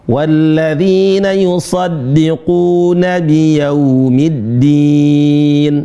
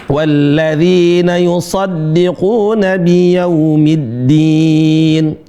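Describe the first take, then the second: The two takes are said the same way.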